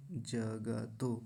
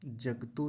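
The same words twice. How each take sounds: First: 'जगतो' slowly as ja-ga-to; three whole syllables in 'जगतो'; full ग. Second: 'जगतो' as jag-to; two quick syllables for 'जगतो'; half ग. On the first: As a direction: sound the vowel after ग in 'जगतो'. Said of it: "जगतो ऐसा कहेंगे". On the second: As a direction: drop the vowel after ग in 'जगतो'. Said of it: "जगतो नहीं बोलेंगे". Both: Shown as a demonstration.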